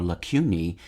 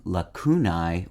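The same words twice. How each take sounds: First: Lacunae as la-KYOO-nee; second pronunciation variant. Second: Lacunae as la-KOO-nye; first pronunciation variant. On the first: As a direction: say lacunae with a KYOO and an ending like "knee". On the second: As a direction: say lacunae with a KOO and an ending like "eye". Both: Shown as a demonstration. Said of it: "two plural options, the Latin spelling lacunae or lacunae".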